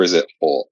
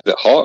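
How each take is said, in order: First: "Hot" with an aw vowel; HAWT pronunciation. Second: Said in the usual way. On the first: Shown as a demonstration. Asking the hosts about a nickname, "Hot" rounded into "hawt". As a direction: say "Hot" as if spelt H-A-W-T. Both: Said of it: "Like H A W T?".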